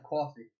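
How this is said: It is said in an East Coast Italian accent. "That's how I say it"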